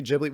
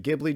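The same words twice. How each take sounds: First: Ghibli with a soft G, like "jib". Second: Ghibli with a hard G, as in "give". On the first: Podcaster recalling the debate, soft-G Ghibli. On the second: Podcaster recalling the debate, hard-G Ghibli. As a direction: say Ghibli as GIB-lee. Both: Shown as a demonstration. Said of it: "I'm gonna alternate how I say it".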